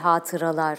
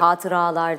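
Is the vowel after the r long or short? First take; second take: short; long. First: The vowel after the r is kept short. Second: The vowel after the r is drawn out long. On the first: The speaker calls it right. "A uzun değil, kısa" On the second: The speaker calls it wrong. "yine yanlış lıkla uzatılabiliyor. Hatıralar değil"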